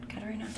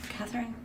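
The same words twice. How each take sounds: First: Katerina said the Russian way, ka-te-REE-na, softly asking; Russian name. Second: Catherine said the English way, KATH-rin, softly asking; English name. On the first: Unsure reader tries the Russian Katerina, soft and questioning. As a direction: try Katerina with a hard t. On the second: Unsure reader tries the English Catherine, soft and questioning. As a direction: try Catherine with a th sound. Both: Shown as a demonstration.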